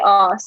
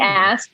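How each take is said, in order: First: It is said the British way, long vowel. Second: It is said the American way, without r.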